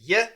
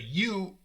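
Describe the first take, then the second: First: The word has a reduced 'uh' vowel. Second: The word has a full 'oo' vowel. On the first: The speaker calls it right. "we say yeah" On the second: The speaker calls it wrong. "we don't say you"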